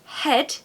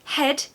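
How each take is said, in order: First: The vowel is a short RP e sound. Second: The same.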